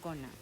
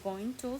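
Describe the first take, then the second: First: The words are blended into one reduced word. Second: Both words are said fully and separately. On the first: The speaker calls it right. "para sonar más nativo, se dice gonna" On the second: The speaker calls it wrong. "no se dice going to"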